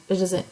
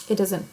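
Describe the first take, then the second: The two takes are said the same way.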